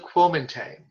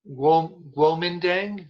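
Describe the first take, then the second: First: It begins with a k sound and has a t. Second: It begins with a g sound and has a d. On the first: "And there's also the Kuomintang" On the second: "there's Guomindang, G U O M I N D A N G"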